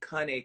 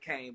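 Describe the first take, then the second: First: It is said the original, non-American way. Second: It is said the common American way. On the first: "but it's really pronounced Cane Corso" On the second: "people in the U S we call it cane"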